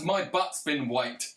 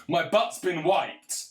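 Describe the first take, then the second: First: Said in the usual way. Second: Slow, higher and louder, hammed-up old man; a hammed-up Biden line, said slow and loud; mock Biden. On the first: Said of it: "What does ... mean". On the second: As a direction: drag it out like a confused old president.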